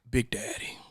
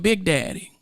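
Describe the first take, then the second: First: It is said in a deep voice. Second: It is said in a high pitch.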